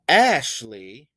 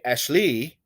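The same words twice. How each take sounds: First: The stress is on the first syllable. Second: The stress is on the second syllable. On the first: The speaker calls it right. "I do stress the first syllable" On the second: The speaker calls it wrong. "I don't say Ashley"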